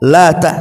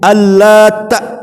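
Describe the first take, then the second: First: The t sound is short, single. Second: The t sound is held long, doubled. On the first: It is a feminine form derived from the word for God. "lata tanpa tasdid" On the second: It refers to a man who kneaded bread dough. "bisa dibaca tasdid"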